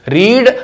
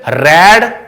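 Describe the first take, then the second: First: The vowel is a long 'ee' sound. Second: The vowel is a short 'e' sound. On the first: It is the present-tense form. "इसका उच्चारण रीड" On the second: It is the past-tense form. "इसका उच्चारण रेड"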